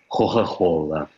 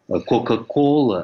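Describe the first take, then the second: First: The k sounds become breathy h sounds. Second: The k sounds are hard stops. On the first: "они произносят «хо-хо-хола»... придыхательному произношению" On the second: "вместо «кока-кола»"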